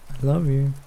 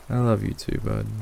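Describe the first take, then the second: First: Higher-pitched bird voice; parrot voice. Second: Said in the usual way. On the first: A narrator's reading. Parrot on owner's shoulder, squawky affection. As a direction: chirp it like a pet parrot.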